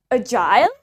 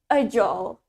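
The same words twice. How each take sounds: First: "agile" said A-jile, ending like "aisle"; British "agile", rising on a full "-ile"; British pronunciation. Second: "agile" with a short ending, like "a-jol"; American "agile", no eye sound before the L; low "agile" with the ending reduced; American pronunciation. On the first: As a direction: model "agile" rhyming with "mile". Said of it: "Okay, in British". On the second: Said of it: "In American accent". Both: Shown as a demonstration.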